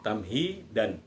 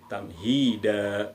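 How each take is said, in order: First: It ends in an n sound. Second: It ends in a long a vowel. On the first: The speaker calls it wrong. "bukan tamhidan" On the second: The speaker calls it right. "kita baca satu eh, panjangnya, dua ketukan"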